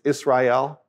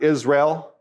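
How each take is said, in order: First: The two vowels near the end are separate. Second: The two vowels near the end merge. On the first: The speaker calls it right. "it's Israel in Hebrew" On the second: The speaker calls it wrong. "That's why it's not Israel"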